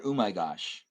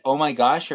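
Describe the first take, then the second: First: "oh my gosh" starting with OO, lower; altered pronunciation. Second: "oh my gosh" with a clear OH, louder; usual pronunciation. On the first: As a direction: say "oh my gosh" as "ooh my gosh", falling. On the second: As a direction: say "oh my gosh" with OH, rising. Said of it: "Is it". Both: Shown as a demonstration.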